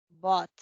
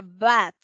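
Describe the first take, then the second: First: "but" with a short, barely open uh; schwa vowel. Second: "bat" with a wide-open a; open-A vowel. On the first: Teacher contrasting two sounds, "but" with schwa. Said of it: "y esta es con A". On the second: Teacher contrasting two sounds, "bat" with open a. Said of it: "esta es con A". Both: Shown as a demonstration.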